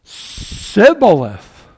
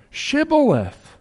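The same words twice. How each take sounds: First: "sibboleth" with a plain s sound, slow and drawn out; wrong pronunciation. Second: "shibboleth" with a clear sh sound, slow; correct pronunciation. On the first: Preacher demonstrating the Ephraimites' failed password, slow s. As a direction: say "sibboleth" slowly, hissing the s, no sh. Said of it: "so it's". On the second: Preacher showing the correct password, slow sh. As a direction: say "shibboleth" slowly, leaning on the sh. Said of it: "Not, no". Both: Shown as a demonstration.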